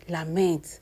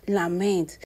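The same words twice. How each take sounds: The two takes are said the same way.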